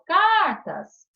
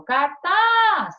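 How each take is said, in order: First: CARTAS with heavy stress on CAR, last syllable dropping away; tônica na primeira sílaba. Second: CARTAZ with TAZ drawn out, loud and high; tônica na última sílaba. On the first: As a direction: punch the first syllable of CARTAS. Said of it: "Sílaba tônica, eu falo". (cartas, com força no CAR) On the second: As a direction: lean hard and long on the TAZ of CARTAZ. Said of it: "a sílaba tônica é o tas". (cartaz, com força no TAZ) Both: Shown as a demonstration.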